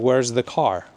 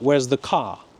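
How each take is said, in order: First: The R at the end of car is pronounced. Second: The R at the end of car is dropped. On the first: This is how a Californian says it. "I'm from California" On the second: This is how a New Yorker says it. "a New Yorker would say"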